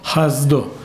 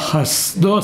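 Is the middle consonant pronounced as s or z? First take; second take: z; s. First: The middle consonant is a z sound. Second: The middle consonant is an s sound. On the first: The speaker calls it wrong. "ולא חסדו" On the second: The speaker calls it right. "חסדו סמך"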